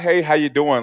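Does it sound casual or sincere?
casual. It is said casually, as a passing greeting.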